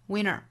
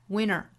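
No difference in how they are said.

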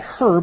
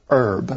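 First: The word begins with an audible H sound. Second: The word begins with no H sound. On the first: The speaker calls it wrong. "We don't say herb" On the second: The speaker calls it right. "the H is silent"

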